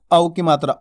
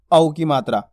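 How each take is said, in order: Both takes have the same delivery.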